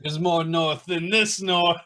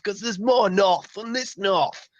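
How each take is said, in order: First: High-pitched hammed-up Yorkshire echo; mock Yorkshire accent. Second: Slow northern Yorkshire voice; mock Yorkshire accent. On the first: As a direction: repeat it as a cartoon northerner. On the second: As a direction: stretch it out like a proud northerner. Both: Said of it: "different Yorkshire accents".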